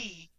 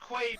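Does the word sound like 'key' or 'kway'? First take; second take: key; kway. First: The word is said as 'key'. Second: The word is said as 'kway'. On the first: This is the correct form but it causes confusion. "pronouncing it correctly, key, is very confusing" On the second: This is how the product is commonly called. "is pronounced Quay"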